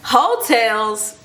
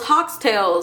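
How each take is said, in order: First: The first part sounds like 'hoe'. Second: The first part sounds like 'hawk'. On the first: The speaker calls it right. "And she said hotels" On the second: The speaker calls it wrong. "I really thought it was Hawktails"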